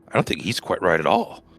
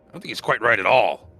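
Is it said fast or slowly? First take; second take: slowly; fast. First: It is said slowly and somberly. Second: It is said fast in a high voice.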